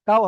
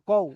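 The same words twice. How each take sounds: First: কাও said with an open long a; কাও as the mistaken form; wrong reading kao. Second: কও said short with a clipped o glide; কও, not stretched to কাও; correct kaw. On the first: Teacher showing the wrong version: কাও drawn open. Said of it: "কাও হবে না". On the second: Teacher correcting the reading: কও said crisply. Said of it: "কাও হবে না, কও।". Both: Shown as a demonstration.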